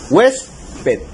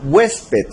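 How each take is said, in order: First: "Huésped" in two separate syllables, HUÉS - ped; split into syllables. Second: Said in the usual way. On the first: Shown as a demonstration. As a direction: say "Huésped" with a clear pause after the stressed HUÉS. Separa la palabra en dos sílabas. ("Huésped" separado en sílabas, HUÉS - ped)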